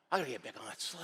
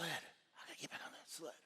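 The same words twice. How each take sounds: First: Softer, lower self-talk; reluctant resolve. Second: Barely audible whisper; whispered self-talk. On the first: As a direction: say it quietly to yourself. Talks himself back onto sled. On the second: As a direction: whisper it to yourself to gather nerve. Same self-talk repeated in whisper. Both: Acted.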